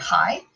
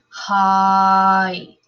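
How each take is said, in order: First: The word is said quickly, vowels blended. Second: The word is drawn out, vowels separated. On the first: "we speak it so fast" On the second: "If I slow it down"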